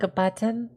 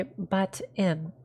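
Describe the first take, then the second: First: Said in the usual way. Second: "butt in" as two slow, separate words; "butt in", each half sounded out; split as butt in. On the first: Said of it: "If you're saying, like". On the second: Shown as a demonstration. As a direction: say "butt in" slowly with a break between. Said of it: "either say butt in".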